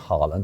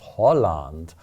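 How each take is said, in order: First: The name starts with an open 'hah' vowel. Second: The name sounds like the word Holland. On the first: The speaker calls it wrong. "It's not Haaland" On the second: The speaker calls it right. "it's Holland. that's how you're supposed to pronounce it"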